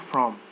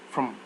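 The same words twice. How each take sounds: First: The vowel is said as a full vowel. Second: The vowel is reduced to a weak schwa. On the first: The speaker calls it wrong. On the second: The speaker calls it right.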